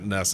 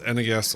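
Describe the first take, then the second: First: It is said as one word, not letters. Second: It is said as three separate letters. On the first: The speaker calls it wrong. "It's not N E S. just because you can pronounce it doesn't mean you should" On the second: The speaker calls it right. "It's N E S or Nintendo Entertainment System"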